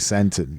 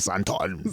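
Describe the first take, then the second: First: It is said in a plain local way. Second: It is said in an exaggerated put-on way. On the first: This is how locals say it. The speaker calls it right. "we say Santon" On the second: An outsider thought locals say it like this. The speaker calls it wrong. "we don't say Santon"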